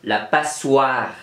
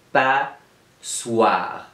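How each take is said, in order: First: Said in the usual way. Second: "Passoire" broken as pas, long pause, soire; split into syllables. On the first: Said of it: "première syllabe ou la deuxième syllabe". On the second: Shown as a demonstration. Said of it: "Dans la première syllabe ou la deuxième syllabe?". (« Passoire » découpé lentement en deux syllabes)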